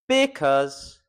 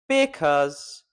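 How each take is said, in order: First: The stress lands on a syllable that sounds odd. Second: The stress lands on a syllable that sounds odd.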